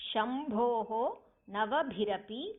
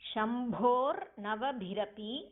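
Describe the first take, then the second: First: The words are split with an echoing h sound. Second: The words are joined with an r sound.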